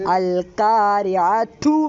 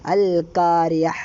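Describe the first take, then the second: First: The word ends with a t sound and vowel. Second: The word ends without any t sound. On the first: The reciter continues into the next words. "തൂ എന്നാ പറഞ്ഞത്" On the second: The reciter stops after this word. "അൽ ഖാരിയൻ്റെ അവിടെ നിർത്തി വെക്കാം"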